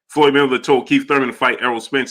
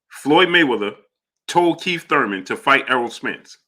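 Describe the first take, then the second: First: The sentence is said at a normal speed. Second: The sentence is said at a slower speed.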